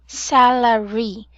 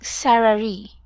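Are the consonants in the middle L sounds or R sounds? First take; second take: L; R. First: The middle consonant is a clear L sound. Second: The middle consonants are R sounds. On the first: The speaker calls it right. "make sure to emphasize Larry" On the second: The speaker calls it wrong. "I was hearing like Sarari"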